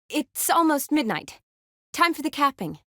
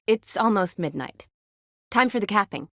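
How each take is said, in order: First: Higher, lifted delivery; pitched well up, same volume; raised-pitch announcement. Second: Said in the usual way. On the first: Acted. Second take, pitched much higher.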